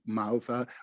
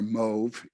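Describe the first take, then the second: First: The name is given a Germanic pronunciation. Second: The name is given a French pronunciation.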